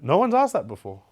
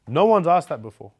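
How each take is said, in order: First: The voice goes up in pitch. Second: The voice stays level without going up.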